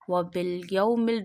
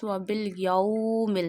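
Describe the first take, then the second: First: The middle 'aw' sound is short and soft. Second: The middle 'aw' sound is drawn out long. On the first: The speaker calls it right. "you not stretch that wow, not sudden pause that wow, you read it very softly" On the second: The speaker calls it wrong. "Don't read it like this ... don't stretch it"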